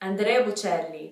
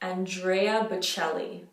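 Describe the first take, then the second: First: It is said with an Italian accent. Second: It is said with an English accent.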